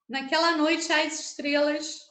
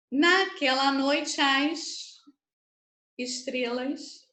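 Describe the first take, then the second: First: "noite as" merged in a flowing line; words run together. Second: Stretched line with "noite as" joined; slow, linked verse. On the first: Teacher showing why syllables join, "noite as" run together. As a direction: swallow the E of "noite" into "as". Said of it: "por isso que eu junto". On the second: Teacher showing where words merge, slow linked reading. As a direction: draw it out, gluing "noite" onto "as". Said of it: "você já percebe que eu emendei". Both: Shown as a demonstration.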